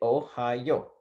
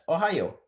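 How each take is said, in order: First: The word is said at a slower pace. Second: The word is said very quickly.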